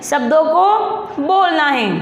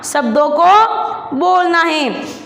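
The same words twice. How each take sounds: First: Slow, deliberate, words spaced out; slow emphatic instruction. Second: Very slow, every word spaced out; slow emphatic instruction. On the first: Teacher repeats the instruction to pupils, slowly. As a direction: say it slowly and plainly to the class. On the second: Teacher tells pupils to say words, very slowly. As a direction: spell it out slowly for small children. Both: Shown as a demonstration. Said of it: "teacher spelling out instruction".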